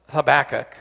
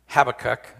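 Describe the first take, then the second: First: Habakkuk as huh-BACK-uk; stress on second syllable. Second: Habakkuk as HAB-uh-kuk; stress on first syllable. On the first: Preacher unsure of a prophet's name, Habakkuk stressed huh-BACK-uk. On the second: Preacher offering another pronunciation, Habakkuk stressed HAB-uh-kuk. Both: Shown as a demonstration. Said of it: "don't know how you pronounce it".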